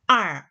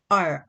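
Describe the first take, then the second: First: The vowel sounds open, like 'ah'. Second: The vowel sounds mid, like 'uh'. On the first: This is the northern pronunciation. "북쪽 지역의 사람들은 아라고 발음을 합니다" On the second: This is the southern pronunciation. "남쪽 지역 사람들이 R, R이라고 이야기를 합니다"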